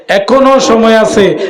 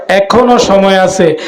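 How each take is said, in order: The two takes are said the same way.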